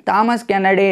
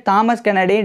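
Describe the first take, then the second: No difference in how they are said.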